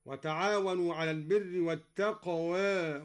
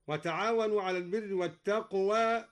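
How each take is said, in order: First: Tilt the last vowel of "والتقوى" slightly toward e; "والتقوى" as wat-taqwae, between aa and e; taqlil. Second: "والتقوى" as wat-taqwaa, vowel not tilted; full open alif. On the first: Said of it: "قلل الدوري التقوى هكذا". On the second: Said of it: "قلل الدوري التقوى". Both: Shown as a demonstration.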